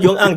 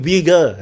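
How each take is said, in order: First: The word starts with a 'y' consonant sound. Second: The word starts with a vowel sound. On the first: The speaker calls it wrong. "That is not Yun Ang" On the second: The speaker calls it right. "That is actually Uyghur"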